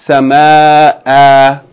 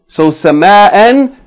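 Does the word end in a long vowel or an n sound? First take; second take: long vowel; n sound. First: The word ends with a long vowel. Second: The word ends with an n sound. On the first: The reader stops on the word. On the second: The reader continues without stopping on the word.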